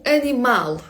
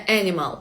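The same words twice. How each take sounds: First: "animal" landing hard on MAL; Portuguese a-nee-MAL for "animal"; stress on last syllable. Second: "animal" as AN-i-mal; English-style wrong example of "animal"; stress on first syllable. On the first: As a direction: punch the final syllable of "animal". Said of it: "наголос завжди на останній склад". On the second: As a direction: lean on the opening of "animal", falling away. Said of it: "не animal". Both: Shown as a demonstration.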